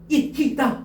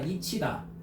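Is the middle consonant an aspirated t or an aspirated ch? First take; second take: aspirated t; aspirated ch. First: The middle consonant is an aspirated t. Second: The middle consonant is an aspirated ch. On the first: The speaker calls it wrong. "이티다 이 말고" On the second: The speaker calls it right. "이치다잖아"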